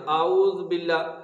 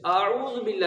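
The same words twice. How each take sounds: First: اعوذ with a clear u on the ذ; اعوذ, ذ carrying a short u; correct pronunciation. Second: اعوذ with the ذ clipped silent, quick; hurried اعوذ with no vowel on ذ; wrong pronunciation. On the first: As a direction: say اعوذ with the ذ voiced with pesh. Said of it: "اس کی ذال کے اوپر پیش ہے". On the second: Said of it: "اعوذ باللہ نہیں کرنا". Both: Shown as a demonstration.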